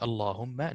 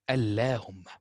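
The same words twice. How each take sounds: First: The L is heavy and full. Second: The L is light and thin. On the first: The speaker calls it right. "Allahumma will be Allahumma" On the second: The speaker calls it wrong. "not Allahumma"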